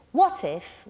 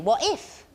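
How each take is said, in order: First: "what" high and strong, "if" dropping away; inverted beat, strong-weak on "what if"; trochee. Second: "if" lifted and punched, "What" lighter; weak-strong "What if", rising onto "if"; stress on IF. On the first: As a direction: punch "what", let "if" fall light. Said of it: "we'd call it a trochee". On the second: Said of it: "is different than dumdi". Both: Shown as a demonstration.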